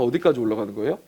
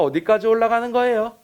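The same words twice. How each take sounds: First: It is said with a standard Korean intonation. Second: It is said with a Daegu dialect intonation. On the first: "이렇게 물어보잖아" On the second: "근데 대구 사람들은 ... 이렇게 물어본대"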